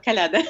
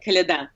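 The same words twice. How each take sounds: First: Kolyada with stress on the middle "YA"; middle-stressed Kolyada with an open "LA"; mispronunciation. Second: Kolyada with stress on the final syllable; end-stressed Kolyada, first vowels short and light; correct pronunciation. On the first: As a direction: wrongly lean on the middle syllable of Kolyada. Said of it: "not Kolyada". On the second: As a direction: land the stress on the last "da" of Kolyada. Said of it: "and by the way, Kolyada, not Kolyada". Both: Shown as a demonstration.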